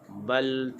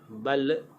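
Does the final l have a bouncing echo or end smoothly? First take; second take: smooth; bouncing. First: The final l ends smoothly without any bounce. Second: The final l ends with a bouncing echo. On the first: The speaker calls it right. "Bunyinya bal tu'thiru" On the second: The speaker calls it wrong. "jangan bunyi bal. Bal seolah-olah macam ada lantunan"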